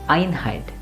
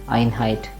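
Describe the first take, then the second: First: The first syllable is clearly stressed. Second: Both syllables are said flat and even. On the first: The speaker calls it right. "As I stress that Einheit" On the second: The speaker calls it wrong. "Never say it plain and simple Einheit like that"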